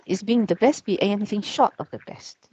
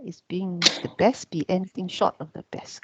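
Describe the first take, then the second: First: Said in the usual way. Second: Whispered, voiceless, no pitch; hushed whisper of the same question. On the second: Shown as a demonstration. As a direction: breathe the question out under your breath. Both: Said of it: "This is a question".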